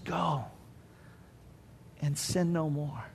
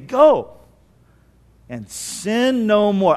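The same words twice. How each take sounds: First: It is said in a gentle, gracious tone. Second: It is said in a harsh, warning tone. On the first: This is a gracious release with new life. The speaker calls it right. "I don't think so. No. He says" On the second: This is a threat not to do it again. The speaker calls it wrong. "what do you think the tone was? You think it was"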